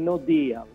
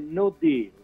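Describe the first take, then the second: First: It is pronounced with Italianized sounds. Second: It is pronounced with the English sounds. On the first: The speaker calls it wrong. "in no deal" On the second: The speaker calls it right. "No, è no deal"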